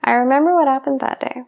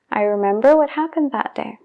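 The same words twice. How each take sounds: First: "I remember what happened that day" run together, "remember" as remember with the b swallowed; fast speech, b dropped. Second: "I remember what happened that day" with a clear b; unhurried, sound the b in "remember"; normal speech, b sounded. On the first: Teacher shows how the phrase sounds in fast speech. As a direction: rush it and drop the b. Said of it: "si estoy hablando muy rápido ... omito esa B". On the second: Teacher shows the normal, unhurried way to say the phrase. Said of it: "si estoy hablando normal ... pronuncio la B". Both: Shown as a demonstration.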